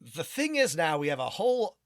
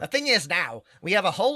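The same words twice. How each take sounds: First: It is read in an ordinary natural voice. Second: It is read in a put-on nerdy voice.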